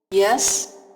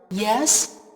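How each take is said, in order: First: The pitch rises on the word. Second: The same.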